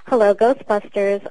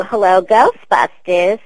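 First: Said in the usual way. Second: Slow, loud Queens receptionist answering the phone; Janine voice. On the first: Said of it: "'cause they didn't want me to do". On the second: Shown as a demonstration. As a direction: drag out the greeting like a New York office girl on the line. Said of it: "Always love whenever people break in the voice".

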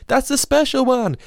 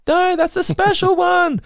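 First: High, slow, wailing yell; imitated child scream. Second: Very high, louder, slow wail breaking into a laugh; louder imitated child scream. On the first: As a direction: shriek it like an upset toddler. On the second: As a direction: scream it even harder, laughing. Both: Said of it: "I just see Elliot screaming".

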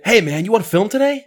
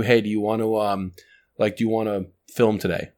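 First: Much higher, lively and friendly; upbeat friendly ask. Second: Said in the usual way. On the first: Shown as a demonstration. Host contrasting an upbeat ask with a flat one. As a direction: sell it with bright energy. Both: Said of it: "it's how you say it".

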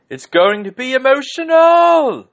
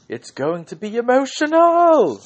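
First: High, loud, slow screamed line; Vinnie Jones scream. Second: High, loud screamed catchphrase; Vinnie Jones scream. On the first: Host imitating Vinnie Jones, screaming high and loud. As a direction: scream it like a wrestling guest host. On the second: Host quoting Vinnie Jones, screaming it high and loud. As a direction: belt it out like a hyped guest host. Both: Retold or imitated. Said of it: "And he just screamed".

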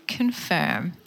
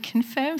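First: Said in the usual way. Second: "confirm" lifted higher with a rising tune; savouring the word. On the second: Shown as a demonstration. Speaker showing her audience her favourite word, rising on "confirm". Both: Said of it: "I love that word".

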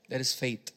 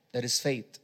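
No difference in how they are said.

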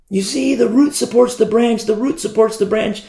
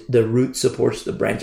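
First: Higher, pressing on root; emphatic retort. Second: Said in the usual way. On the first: Retold or imitated. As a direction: drive home the word root in a raised voice. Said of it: "I've had these conversations with the Hebrew roots". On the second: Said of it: "The branch does not support the root".

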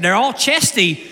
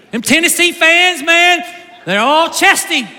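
First: Said in the usual way. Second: Higher, louder playful jeer at rival fans; teasing shout. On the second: Real, not acted. Ribbing a Tennessee fan in the room, playful loud jeer. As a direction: call them out loud and grinning.

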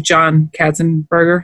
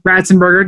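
First: Katzenberger said with a hard K at the start; mispronounced name. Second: Ratzenberger said with an R at the start; corrected name. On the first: Host fumbling the actor's name, Katzenberger with a K. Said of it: "Did I say Katzenberger?". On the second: Host repeating the co-host's fix, Ratzenberger with an R. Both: Real, not acted.

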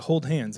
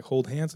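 First: Said in the usual way. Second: "Hold hands?" softly, rising at the end; questioning echo. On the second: Retold or imitated.

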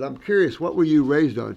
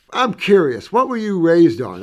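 First: Said in the usual way. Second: Eager question. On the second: Retold or imitated. Asking old woman eagerly.

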